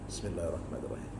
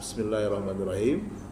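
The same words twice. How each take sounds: First: The phrase is recited softly, almost under the breath. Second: The phrase is recited loudly and clearly. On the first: "mau dibaca sir" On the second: "Mau dibaca keras"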